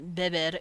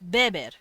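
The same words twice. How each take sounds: First: The stress is on the second syllable. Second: The stress is on the first syllable. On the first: The speaker calls it wrong. "it's not beber" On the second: The speaker calls it right. "You influx that eh, that first eh"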